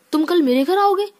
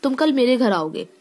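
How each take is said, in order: First: Amazed exclamation. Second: Said in the usual way. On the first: Shown as a demonstration. Teacher showing students how surprise sounds, high amazed exclamation. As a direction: gasp it out as if you can't believe it. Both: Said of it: "एक बोलने में ही अलग तरीका आ रहा है".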